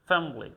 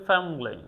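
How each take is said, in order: Both takes have the same delivery.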